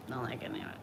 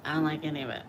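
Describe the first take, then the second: First: Drops lower and quieter; quiet, lower echo of the line; softer repeat. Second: Said in the usual way. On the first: Real, not acted. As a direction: let the repeat sink down and fade. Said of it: "repeated, softer". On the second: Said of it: "repeated line".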